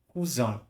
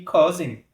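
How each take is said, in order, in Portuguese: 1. Ela é dita com uma pronúncia francesa. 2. Ela é dita com uma pronúncia inglesa. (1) "em francês, eu vou pronunciar cousin" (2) "vai mudar, né? A pronúncia já muda"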